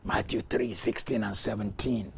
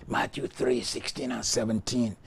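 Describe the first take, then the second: No difference in how they are said.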